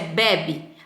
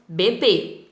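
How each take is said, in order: First: The stress is on the first syllable. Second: The stress is on the second syllable. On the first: A form of the verb to drink. "a primeira pronúncia é bebe" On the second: A baby. "a segunda pronúncia com acento circunflexo"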